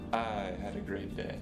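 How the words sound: The stress is on the word "I". Someone else did not have a good day. "The first time I emphasized the word I"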